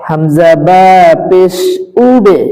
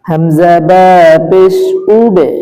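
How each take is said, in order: The two takes are said the same way.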